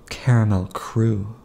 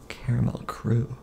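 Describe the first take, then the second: First: Said in the usual way. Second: Breathy whispered aside. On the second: Acted. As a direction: whisper it like a secret. Repeated line, second whispered.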